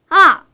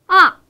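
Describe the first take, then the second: The two takes are said the same way.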